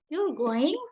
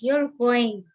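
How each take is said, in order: First: It is said with question intonation. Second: It is said as a firm command. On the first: The speaker asks whether the listener is going. "kita membacanya dengan intonasi pertanyaan" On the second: The listener is told to go. "ini adalah sebuah perintah"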